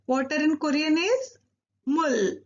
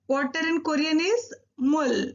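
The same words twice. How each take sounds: The two takes are said the same way.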